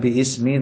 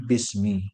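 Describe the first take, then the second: First: The alif vowel is voiced, giving two separate words. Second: The alif is silent, fusing everything into one word. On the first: The speaker calls it wrong. "bukan bi ismi" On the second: The speaker calls it right. "alifnya ini tidak dibaca, ini langsung masuk kepada bis"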